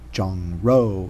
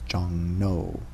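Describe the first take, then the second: First: The second syllable starts with an r sound. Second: The second syllable starts with an n sound. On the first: The speaker calls it wrong. "so it's not Jong Ro" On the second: The speaker calls it right. "it's Jong No"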